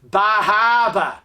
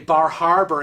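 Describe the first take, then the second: First: The r sounds are dropped, New England style. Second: The r sounds are pronounced clearly. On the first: "had a New England accent" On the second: "people don't say Bar Harbor"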